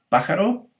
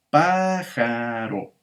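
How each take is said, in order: First: Said in the usual way. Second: "pájaro" drawn out slowly, pá-ja-ro; syllable by syllable. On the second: Shown as a demonstration. Teacher showing students the syllables of "pájaro", slow and drawn out. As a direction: stretch each syllable of "pájaro" evenly.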